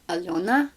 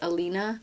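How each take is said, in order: First: The middle vowel sounds like 'yo'. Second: The middle vowel sounds like 'ee'. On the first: "the proper Russian way to pronounce it is Alyona" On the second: "rather than my name being pronounced Alina"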